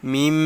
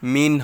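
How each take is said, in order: First: The word ends with an m sound. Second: The word ends with an n sound. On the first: "মিন না বলে মিম বলতেছি" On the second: "মিম নুনজের মিন হয়"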